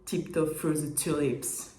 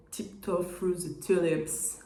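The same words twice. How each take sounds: First: Playful fake anglophone accent; mock English accent. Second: English title in French accent. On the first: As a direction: show off a put-on English accent, slowly. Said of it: "je vous le refais". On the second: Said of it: "Avec mon accent qui s'améliore". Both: Shown as a demonstration.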